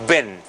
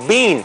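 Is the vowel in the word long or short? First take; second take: short; long. First: The vowel is short and relaxed. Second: The vowel is long and tense. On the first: It is the past participle of be. The speaker calls it right. "lo pronunciamos con una I más corta. Sería exactamente así" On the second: It would mean the food bean. The speaker calls it wrong. "pronunciamos una I más tensa y más larga"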